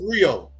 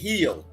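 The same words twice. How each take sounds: First: The word begins with an English R sound. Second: The word begins with a breathy H sound. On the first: This is how English speakers say it. "They don't say Rio" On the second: This is how locals say it. "They say Rio"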